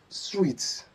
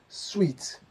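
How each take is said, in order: No difference in how they are said.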